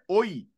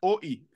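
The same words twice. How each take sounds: First: The two vowels are linked together. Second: The two vowels are said separately. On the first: The speaker calls it right. "fais oi" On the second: The speaker calls it wrong. "Ne fais pas oi"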